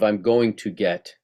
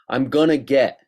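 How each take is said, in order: First: Each word is said fully and distinctly. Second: The words are run together and clipped. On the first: The speaker calls it right. "instead of" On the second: The speaker calls it wrong. "People saying things like"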